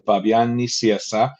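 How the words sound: The name is said with a Spanish pronunciation. "in Spanish it's"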